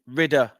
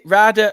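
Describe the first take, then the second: First: The first vowel sounds like in 'rid'. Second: The first vowel sounds like in 'ride'. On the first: "as in got rid of her" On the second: "as in like you know like a like a bike rider"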